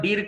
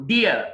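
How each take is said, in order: First: డీర్ said "deer" with sounded r; long ee and an r in డీర్; mistaken pronunciation. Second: డియర్ said "DEE-uh"; silent final r. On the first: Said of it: "డీర్ కాదు". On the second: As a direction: glide డియర్ into uh, no r. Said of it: "ఆర్ పలకకూడదు last లో". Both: Shown as a demonstration.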